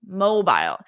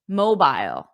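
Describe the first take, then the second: First: It is said in a British accent. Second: The same.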